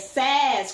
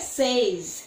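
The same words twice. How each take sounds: First: The vowel is an open E sound. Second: The vowel is a closed diphthong sound. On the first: The speaker calls it right. "é says, com som aberto" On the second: The speaker calls it wrong. "não é says"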